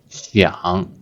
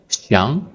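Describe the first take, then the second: First: The word is said in the third tone. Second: The word is said in the second tone. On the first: This is the word said on its own. "the original pronunciation of the first word is the third tone" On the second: This is the word when it is doubled. "it changed to the second tone"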